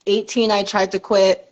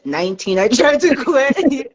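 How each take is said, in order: First: Said in the usual way. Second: "tried" stretched out high through a laugh; stress on tried. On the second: Real, not acted. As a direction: lean hard on "tried", laughing, drawing it out. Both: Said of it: "Emphasis on tried".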